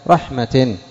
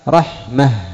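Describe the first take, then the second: First: The word ends with a t sound. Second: The word ends with an h sound. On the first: The word is joined to what follows. "إذا وصلت تقول رحمة رحمة رحمة، هي تاء تاء" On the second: The speaker stops after the word. "عند الوقف كيف تقف عليها؟ رحمة. أبدلت التاء هاء عند الوقف"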